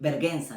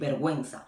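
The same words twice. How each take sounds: First: The u after the g is silent. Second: The u after the g is sounded. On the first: The speaker calls it wrong. "you don't say like uh, vergüenza" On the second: The speaker calls it right. "you say vergüenza, you pronounce it"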